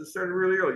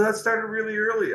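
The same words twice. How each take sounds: First: Said in the usual way. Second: Put-on much higher, British rocker accent on every word; English accent impression. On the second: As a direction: do the singer's English accent, then drop it. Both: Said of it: "I don't do the accent anymore".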